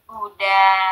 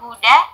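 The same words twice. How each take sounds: First: The final vowel is drawn out long. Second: The final vowel is short. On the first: The speaker calls it right. "tapi yang betul huda, da" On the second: The speaker calls it wrong. "Ini bacanya bukan hudan atau huda"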